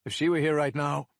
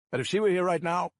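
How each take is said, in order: First: Heavier voice full of gravel on were; heavier, gravelly. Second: Throat catching. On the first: Cop at the mic, voice heavy and gravelly. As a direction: weigh down were with grief. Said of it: "my voice heavier now, full of gravel". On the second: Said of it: "my throat catches". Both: A narrator's reading.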